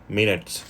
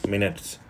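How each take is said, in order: The two takes are said the same way.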